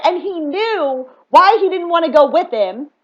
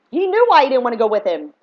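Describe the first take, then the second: First: "why" drawn out and rising, slowly; "why" stretched high, the rest slower; stress on why. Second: "knew" hit hard with a falling close; "knew" stressed, sentence settles downward. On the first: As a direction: lean on "why" in "he knew why". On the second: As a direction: punch "knew" in "He knew why". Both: Real, not acted.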